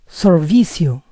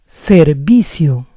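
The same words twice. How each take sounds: First: The first syllable sounds like sir. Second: The first syllable sounds like ser. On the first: The speaker calls it wrong. "I eliminated the e and said sir" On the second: The speaker calls it right. "the word is servicio"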